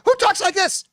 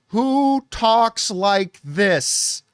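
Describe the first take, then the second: First: It is said much faster and angrily. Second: It is said at a slower pace.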